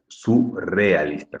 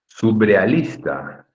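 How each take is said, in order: First: A trilled R comes after the first syllable. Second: A B sound comes after the first syllable. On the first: The speaker calls it right. "con doble R" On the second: The speaker calls it wrong.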